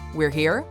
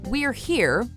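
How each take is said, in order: First: The voice rises at the end like a question. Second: The voice falls at the end like a statement. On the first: It asks a question. "you can ask it as a question" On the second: It states a fact. "if you can say something"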